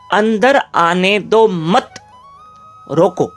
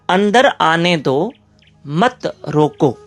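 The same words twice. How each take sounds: First: The pause comes after 'mat'. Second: The pause comes before 'mat'.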